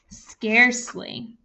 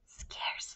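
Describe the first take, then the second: First: The word is said in a normal voice. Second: The word is said in a breathy whisper. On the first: "I want you to say the word scarcely for me" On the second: "Now I want you to say it in a whisper voice"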